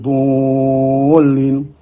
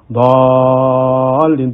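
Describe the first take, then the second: First: The vowel after the thick consonant is rounded 'u'. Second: The vowel after the thick consonant is open 'a'. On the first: This is how some local teachers teach it. The speaker calls it wrong. "bukan dhulin" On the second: The speaker calls it right.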